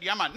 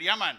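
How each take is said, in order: First: Lower, laid-back Jamaican yeah man; Jamaican, unbothered and low; Jamaican accent. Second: Easy Jamaican drawl, unbothered; calm Jamaican yeah man; Jamaican accent. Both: Retold or imitated. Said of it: "I said".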